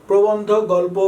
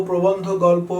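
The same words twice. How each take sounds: Both takes have the same delivery.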